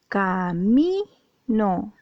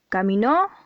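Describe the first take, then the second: First: The stress is on the second-to-last syllable. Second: The stress is on the last syllable. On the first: The speaker calls it right. "la penúltima sílaba es la sílaba acentuada" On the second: The speaker calls it wrong. "No, en este caso no, porque eh, si te das cuenta en la O no lleva tilde"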